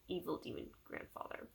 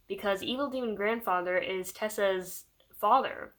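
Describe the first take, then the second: First: Breathy mock-ominous whisper, much softer; spooky whisper. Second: Said in the usual way. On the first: Shown as a demonstration. Vlogger teasing the villain's silly name: soft spooky whisper. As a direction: whisper the name like a horror trailer.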